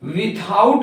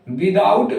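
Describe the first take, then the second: First: The middle consonant is a t-like sound. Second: The middle consonant is a d-like sound. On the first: "विथआउट भी पढ़ते हैं" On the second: "विदाउट भी पढ़ते हैं"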